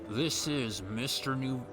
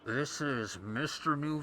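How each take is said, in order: First: The voice sounds plain and natural. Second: The voice sounds muffled, like over a radio.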